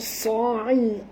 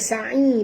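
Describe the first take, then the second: First: The s sound is heavy and deep. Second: The s sound is thin and light. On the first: The speaker calls it right. "Sad tebal" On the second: The speaker calls it wrong. "jangan baca sa'i"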